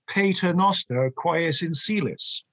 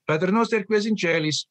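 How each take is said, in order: First: The Latin is pronounced with English sounds. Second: The Latin is pronounced with Italian sounds. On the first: This is the older English and Irish custom. "in England and in Ireland, it would be ... as though it were English" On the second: This is the Roman way everyone later adopted. "Roman. ... just like the Italians"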